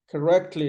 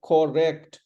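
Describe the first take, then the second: First: Correctly as kuh-REKT-lee; "Correctly" stressed on rect. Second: "correct" with both syllables full; mispronounced correct. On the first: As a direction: say Correctly with a weak first syllable. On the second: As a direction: correct as kor-REKT, full 'o'. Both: Shown as a demonstration. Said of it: "is not correct".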